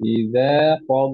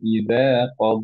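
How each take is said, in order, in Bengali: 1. এটি সরাসরি পরের শব্দগুলোর সঙ্গে চলতে থাকে। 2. এরপর একটি দাঁড়ি থাকে। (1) "যদি কন্টিনিউ করি" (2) "যদি থেমে যাই"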